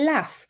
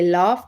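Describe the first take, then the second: First: The vowel is short, as in cat. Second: The vowel is long, as in car. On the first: It is the Northern English pronunciation. "they say laugh" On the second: It is the Southern English pronunciation. "I say laugh"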